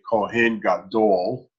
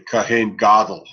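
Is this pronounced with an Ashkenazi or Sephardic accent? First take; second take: Sephardic; Ashkenazi. First: It is said with a Sephardic Hebrew accent. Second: It is said with an Ashkenazi Hebrew accent.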